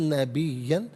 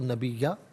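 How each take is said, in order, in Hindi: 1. शब्द 'न' की आवाज़ से खत्म होता है। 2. शब्द लंबे स्वर से खत्म होता है।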